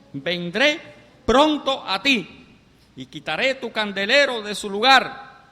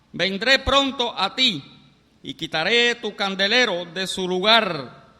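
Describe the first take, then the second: Both takes have the same delivery.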